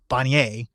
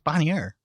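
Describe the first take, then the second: First: The name is pronounced the French way. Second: The name is pronounced the non-French way. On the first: The speaker calls it wrong. "I'm French, so like for some reason I just want to say Bonnier" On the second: The speaker calls it right. "but it's Bonnier"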